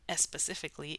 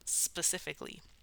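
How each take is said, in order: First: An extra 'eh' vowel comes before the S. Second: The word starts directly with the S sound. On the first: The speaker calls it wrong. "It's not s specifically" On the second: The speaker calls it right. "it's just specifically"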